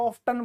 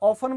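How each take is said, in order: First: The t sound is pronounced. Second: The t sound is silent. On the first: "टी है तो हम इसे बोलेंगे" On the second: "टी silent कर दिया"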